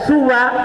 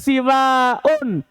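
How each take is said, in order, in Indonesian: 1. Vokal pertama u pendek, akhiran terbuka pendek. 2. Vokal pertama i pendek, akhiran panjang dengan hamzah. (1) "dibaca suwa ka huda, seperti kata huda" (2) "siwaun seperti binaun"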